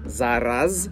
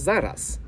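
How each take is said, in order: First: The word ends in a voiced z sound. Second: The word ends in a voiceless s sound.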